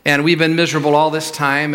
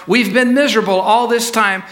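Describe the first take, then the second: First: Said in the usual way. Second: Higher-pitched, fed-up complaint; acted exasperation, voice lifted; exasperated. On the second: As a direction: raise the pitch and insist you are fed up. Father repeats it, now heated.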